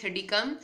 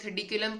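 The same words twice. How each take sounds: First: Thirdycum said slowly and carefully in three clear syllables, no extra syllable; correct pronunciation. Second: Thirdiculum said with the extra syllable, the way some people wrongly read it; a teacher quoting the common mistake thirdiculum as thirdiculum; wrong pronunciation. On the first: Teacher correcting students to the proper thirdycum, slow and deliberate. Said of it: "कुछ लोग thirdiculum पढ़ रहे होते हैं". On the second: Teacher showing students the wrong reading thirdiculum. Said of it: "लेकिन it's actually thirdycum". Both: Shown as a demonstration.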